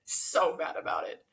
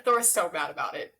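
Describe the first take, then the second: First: Hushed whisper, low and breathless. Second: Said in the usual way. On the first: Shown as a demonstration. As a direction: drop to a whisper.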